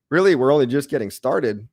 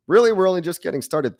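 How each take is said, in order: First: Said in the usual way. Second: Higher, pumped-up repeat; excited higher repeat. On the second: Real, not acted. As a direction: lift it up with hype.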